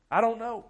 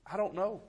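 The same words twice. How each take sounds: First: I don't know, higher and louder, cried out; anguished cry. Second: Said in the usual way. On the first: Real, not acted. Preacher repeats his answer to the church, raised in anguish. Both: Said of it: "So how do you respond to that?".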